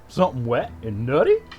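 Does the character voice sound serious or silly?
silly. A silly, goofy cartoon voice is used. "like Goofy"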